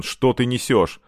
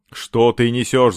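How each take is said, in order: First: Said in the usual way. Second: Louder, slow, drawn-out protest; indignant yell. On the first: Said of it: "сказал Семён". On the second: A narrator's reading. Captive protests absurd questions, yelling. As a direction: shout it slowly in disbelief. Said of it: "заорал Семён".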